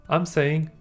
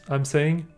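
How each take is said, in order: No difference in how they are said.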